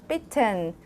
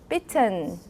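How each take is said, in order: Both takes have the same delivery.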